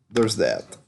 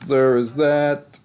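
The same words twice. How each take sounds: First: Said in the usual way. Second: Higher, slow mock-dramatic voice; repeating the sign-off, slow and mock-dramatic; slow put-on sign-off. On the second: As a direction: stretch it out like a grand closing. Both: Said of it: "repeated tag line".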